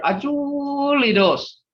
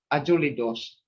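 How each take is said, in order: First: Ajuli with the middle stretched long and high. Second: Said in the usual way. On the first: Shown as a demonstration. Teacher making grandfather older, Ajuli stretched long and high. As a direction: draw out the "ju" in Ajuli on a raised, held tone. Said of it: "you can make him older". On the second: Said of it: "Ajuli is old".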